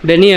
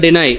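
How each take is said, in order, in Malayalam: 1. ഈ വാക്ക് 'ee' ശബ്ദത്തിലാണ് അവസാനിക്കുന്നത്. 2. ഈ വാക്ക് 'eye' ശബ്ദത്തിലാണ് അവസാനിക്കുന്നത്. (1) "ഡെനി അല്ല"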